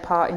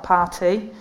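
First: The word is said in a regional working-class accent. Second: The word is said in a posh upper-class accent. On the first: The speaker has kept her original way of talking. "I still say party" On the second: This would set the speaker above her class. "not party"

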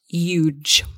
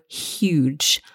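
First: The word begins without any H sound. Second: The word begins with a clear H sound. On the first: The speaker calls it wrong. "not huge" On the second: The speaker calls it right. "we must pronounce the H. So huge"

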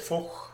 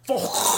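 First: It is said with a soft, mild sound. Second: It is said with a harsh, guttural sound.

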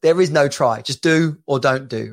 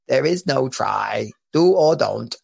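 First: It is said in his normal voice. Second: It is said in a put-on Yoda voice.

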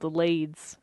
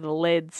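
First: The vowel is long, like in 'bead'. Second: The vowel is short, like in 'bed'. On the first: The speaker calls it wrong. "I'm saying it wrong" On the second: The speaker calls it right. "Maybe it's Leads. That would make sense. ... named after the lead plates"

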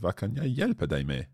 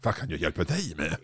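First: The word dig is not stressed. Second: The word dig is stressed.

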